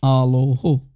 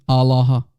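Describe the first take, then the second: First: "Aloho" said as ah-lo-HO, with rounded O vowels; own Aramaic dialect. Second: "Allah" said as ah-lah-HA, in three syllables; other speaker's Aramaic dialect. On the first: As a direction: say "Aloho" in three syllables ending in a breathed HO. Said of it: "I will say". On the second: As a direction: say "Allah" with open A vowels and a breathed final HA. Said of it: "will say in his dialect". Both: Shown as a demonstration.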